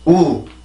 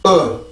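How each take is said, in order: First: A Korean u with lips rounded before sounding. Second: A very short English u as lips open. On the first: "우리나라 말은 입술을 만들어 놓고 그러고 나서 소리를 해요" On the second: "이렇게 열리면서 소리를 만들어주면 조금 더 정확하게"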